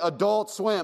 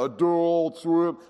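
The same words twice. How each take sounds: First: It is said at a normal, plain speed. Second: It is drawn out very slowly and low.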